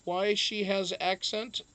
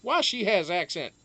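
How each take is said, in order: First: Put-on "why she has accent" read slowly with a rising end; slow, puzzled rise up to "accent"; questioning tune. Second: Put-on "Why she has accent" louder, falling at the end; emphatic read-back. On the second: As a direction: hit "Why" high and drop through "accent". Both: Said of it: "is that an interrogative statement".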